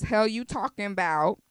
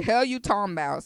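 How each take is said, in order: First: Said in the usual way. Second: Southern accent. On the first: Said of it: "or actually, Hell You Talking About". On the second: Shown as a demonstration. Podcast host correcting a song title into a Southern accent. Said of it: "let me get my, my Southern accent together".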